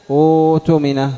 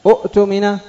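First: أؤتمن slow, with long smooth uu; waw replacing hamza. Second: أؤتمن high, glottal stop after first u; original double hamza. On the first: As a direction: draw out أؤتمن as uutumina. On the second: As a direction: break أؤتمن as 'u'tumina. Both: Shown as a demonstration. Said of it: "إبدال الواو من الهمزة".

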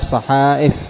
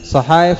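First: صحائف with glottal stop after long aa; hamza replacing ya. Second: صحائف higher, with y for the hamza; original ya form. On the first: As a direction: say صحائف as sahaa'if. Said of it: "الهمزة بدل". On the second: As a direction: say صحائف as sahaayif. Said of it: "الياء". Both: Shown as a demonstration.

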